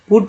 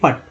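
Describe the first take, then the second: First: The vowel is a short oo sound. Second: The vowel is a short uh sound. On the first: The speaker calls it right. "ऊ हो जाता है, पुट होता है" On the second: The speaker calls it wrong. "ना कि पट"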